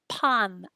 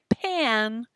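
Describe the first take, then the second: First: The vowel is an open 'ah' sound. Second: The vowel sounds like the English word pan. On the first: It names bread. The speaker calls it right. "This is pan. A, a, a, pan" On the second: It names a cooking pan. The speaker calls it wrong. "So don't say pan, right? This isn't a pan"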